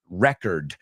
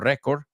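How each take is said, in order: First: The final D is clearly heard. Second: The final D is weak and barely heard. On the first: The speaker calls it right. "Hay que oír esa D también" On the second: The speaker calls it wrong. "no récord"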